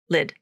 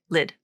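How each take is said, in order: First: The vowel sounds like the 'i' in 'sit'. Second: The same.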